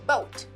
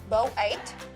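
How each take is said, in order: First: The two vowels blend into one sound. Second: The two vowels are said as separate sounds. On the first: The speaker calls it right. "we say" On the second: The speaker calls it wrong. "We don't say"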